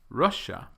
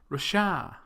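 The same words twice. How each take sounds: First: The stress is on the first syllable. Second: The stress is on the second syllable. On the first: The speaker calls it right. "instead of Russia" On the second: The speaker calls it wrong. "with the stress on the wrong syllable"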